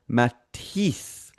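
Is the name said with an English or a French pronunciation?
French. The name is said with a French pronunciation. "the French pronunciation would sound more like Matisse"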